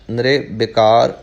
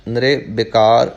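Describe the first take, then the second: First: The short i vowel comes right after the r. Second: The same.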